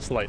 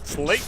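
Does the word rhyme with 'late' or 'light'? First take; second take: light; late. First: The vowel sounds like the one in 'light'. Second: The vowel sounds like the one in 'late'. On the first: "Or slight" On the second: "It's like slay with a T"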